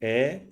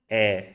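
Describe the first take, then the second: First: "E" tense, mouth barely open; narrow, tense "E"; common tense E. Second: "e" with mouth opened slightly; open, lax "e" as in bed; open flattened E. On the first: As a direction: say "E" with the tongue tight and raised. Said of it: "go one to the other". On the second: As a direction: say "e" with the tongue flat and wide. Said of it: "I open my mouth and I flatten my tongue". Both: Shown as a demonstration.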